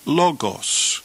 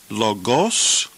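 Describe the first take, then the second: First: "logos" stressed high on LO, then falling; LO-gos, punch the first syllable of "logos". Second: "logos" stressed on the last syllable, rising; lo-GOS, lifting the second syllable of "logos"; wrong-syllable stress. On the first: Teacher offers students the second reading, "logos" stressed on LO. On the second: Teacher offers students a choice of readings, "logos" stressed on the end. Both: Shown as a demonstration. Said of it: "the accent occurs over the first syllable".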